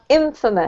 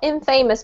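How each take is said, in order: First: The stress is on the first syllable. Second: The stress is on the second syllable. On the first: The speaker calls it right. "The emphasis is on the first syllable" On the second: The speaker calls it wrong. "so not infamous"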